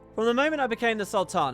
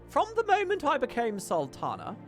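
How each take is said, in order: First: It is said in the speaker's ordinary voice. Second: It is said in a put-on regal queenly voice. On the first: The speaker calls it wrong. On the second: The speaker calls it right.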